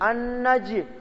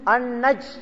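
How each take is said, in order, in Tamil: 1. கடைசி மெய்யெழுத்து எதிரொலிக்கும் அதிர்வுடன் வெளிவிடப்படுகிறது. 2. கடைசி மெய்யெழுத்து எதிரொலி இல்லாமல் திடீரென நின்றுவிடுகிறது. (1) "ஜீமுக்கு சுக்குன் வந்து ஜீமும் இந்த குடும்பத்தை சார்ந்தது" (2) "அன்னஜ் இல்ல"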